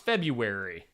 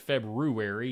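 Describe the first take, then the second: First: The first R sound is left out. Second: The first R sound is clearly pronounced. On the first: "I say it without the, the R" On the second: "Nobody says February, do they?"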